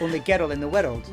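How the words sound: The R in girl is tapped.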